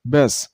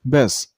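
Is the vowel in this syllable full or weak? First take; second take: weak; weak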